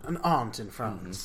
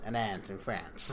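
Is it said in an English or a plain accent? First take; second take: English; plain. First: It is said in an English accent. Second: It is said in a plain accent.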